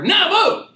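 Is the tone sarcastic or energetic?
energetic. It is said with great energy.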